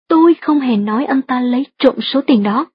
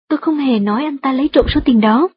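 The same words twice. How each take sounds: First: The stress falls on the word tôi. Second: No word is given special stress. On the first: Someone else said it, not the speaker. "nếu nhấn mạnh từ tôi trong câu thứ hai như thế này" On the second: It is a simple statement. "Đây chỉ là một câu trần thuật đơn giản"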